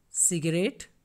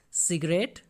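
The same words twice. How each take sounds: The two takes are said the same way.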